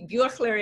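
The name is pronounced the Swiss German way. "Y Buechler en suizo-alemán"

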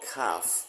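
The vowel is a long 'ar' sound. "ถ้าเป็นคนอังกฤษหรือ British English จะออกเสียงเป็นสระ R"

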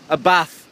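It is said in a northern English accent.

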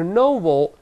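It is said in a British accent. "英国人读是novel"

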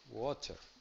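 It is said in a British English accent. "en inglés británico"

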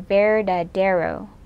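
It is said with an American English accent. "if you're saying it with an English or an American accent"

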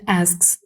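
It is said with an American accent. "в американській буде asks"

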